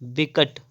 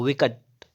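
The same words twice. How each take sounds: First: विकट starting with b, bikaṭ; closed-lip b opening विकट; wrong pronunciation. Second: विकट starting with v; correct pronunciation. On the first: Teacher showing the error, विकट as bikaṭ. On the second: Teacher correcting, विकट as vikaṭ. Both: Shown as a demonstration. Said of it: "विकट नहीं होता है".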